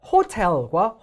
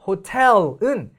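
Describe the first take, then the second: First: 호텔 with the first syllable 호 punched; stress on 호. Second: 호텔 with a light 호 and strong 텔; stress on 텔. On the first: Teacher contrasts two words of same spelling, stress on 호. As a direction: hit 호 hard in 호텔과, 텔 weaker. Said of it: "호텔이라고 호에 강세가 들어가". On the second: Teacher contrasts two words of same spelling, stress on 텔. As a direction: hit the second syllable 텔 in 호텔은. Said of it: "텔에 있기 때문에". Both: Shown as a demonstration.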